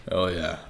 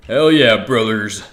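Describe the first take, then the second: First: Lower, softer hell yeah, under the breath; muted hell yeah. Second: Hyped shout. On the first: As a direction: keep it low and muted. Repeats it, then loud. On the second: Streamer hyping up his viewers, loud cheer. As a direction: shout it out to the crowd. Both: Acted.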